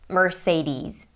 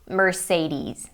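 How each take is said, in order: First: It is said with an American pronunciation. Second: The same.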